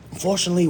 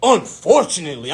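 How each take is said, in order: First: UNFORTUNATELY said mildly and courteously; gentle bad-news "unfortunately"; polite advisor. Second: "Unfortunately" thrown back indignantly; hot-headed. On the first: Financial advisor breaking bad news to applicant, politely. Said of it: "she said it so politely". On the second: Retold or imitated. Applicant challenging the advisor's word, hot-headed. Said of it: "in my hot head stage".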